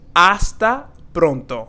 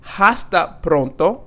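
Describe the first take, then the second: First: The H at the start is silent. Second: The H at the start is pronounced. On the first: The speaker calls it right. "here we have the silent H" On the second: The speaker calls it wrong. "we're not going to say hasta pronto"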